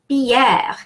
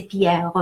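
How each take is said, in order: First: Pierre as "pyehr", final E silent; open French E. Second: Pierre with the final E sounded, "pyeh-reuh"; really enunciated. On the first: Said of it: "why do I pronounce E". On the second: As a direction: enunciate Pierre down to a last "euh". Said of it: "if I really enunciate". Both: Shown as a demonstration.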